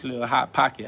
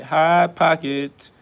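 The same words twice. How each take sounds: First: Said in the usual way. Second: Hot pocket stretched very slow with a punch on hot; slow mocking repeat, hot stressed; drawn-out emphasis. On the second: Real, not acted. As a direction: savour the insult Hot pocket slowly.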